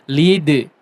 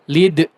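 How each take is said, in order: First: The final d bounces out with open airflow. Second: The final d is cut off with a closed throat. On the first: The speaker calls it right. "jangan ditutup, tapi lead" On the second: The speaker calls it wrong. "pita suaranya jangan ditutup ya"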